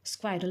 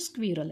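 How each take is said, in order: First: The first vowel sounds like 'eye'. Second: The first vowel is a short 'i'. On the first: The speaker calls it wrong. "बरेच जण चुकीचा उच्चार करतात, स्क्वायरल म्हणतात" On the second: The speaker calls it right. "तो स्क्वायरल नाही तर तो स्क्विरल आहे"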